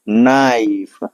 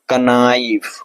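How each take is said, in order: First: The word starts with n, k silent. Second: A k sound is pronounced before the n. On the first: The speaker calls it right. "हमारा के silent होगा" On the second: The speaker calls it wrong. "कनाइफ पढ़ेंगे, सही होगा, नहीं"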